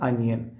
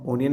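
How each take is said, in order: First: The word begins with an 'uh' vowel. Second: The word begins with an 'oh' vowel. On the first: The speaker calls it right. "Pronunciation അനിയനാണ് കേട്ടോ" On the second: The speaker calls it wrong. "ഒനിയൻ അല്ല"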